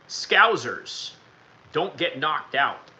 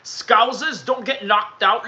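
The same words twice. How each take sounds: First: It is spoken in an American accent. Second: It is spoken in a non-American accent.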